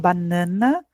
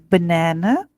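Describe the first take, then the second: First: It is said with Portuguese pronunciation. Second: It is said with English pronunciation. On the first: The speaker calls it wrong. "a gente não fala banana, como a gente fala no português" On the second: The speaker calls it right. "é banana"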